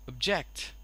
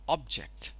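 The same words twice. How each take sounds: First: The first vowel sounds like eh. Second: The first vowel sounds like o. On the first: "The first sound over here is this sound, eh" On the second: "The first sound is o and becomes ob"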